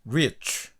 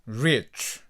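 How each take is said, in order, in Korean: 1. 이 단어는 약한 'oo'에 가까운 모음으로 끝납니다. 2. 이 단어는 약한 'oo'에 가까운 모음으로 끝납니다.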